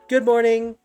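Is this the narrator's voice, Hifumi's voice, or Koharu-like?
Hifumi. It is said in Hifumi's character voice.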